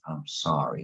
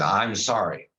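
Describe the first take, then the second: First: Lower, softer, mournful "I'm sorry"; sad sorry. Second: Said in the usual way. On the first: Shown as a demonstration. Showing how apologies usually sound, mock sad. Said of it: "You gotta say". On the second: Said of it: "you can't say it like that".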